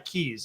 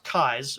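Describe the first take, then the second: First: The vowel sounds like the word 'see'. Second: The vowel sounds like the word 'eye'. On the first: This is a later adopted pronunciation. "but I also go by Keys" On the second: This is the original family pronunciation. "my name is actually pronounced Kais"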